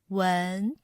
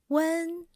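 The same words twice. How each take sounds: First: The pitch rises from middle to high. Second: The pitch stays high and level. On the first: "we need to lift up the sound of the word" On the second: "The first tone has the highest pitch"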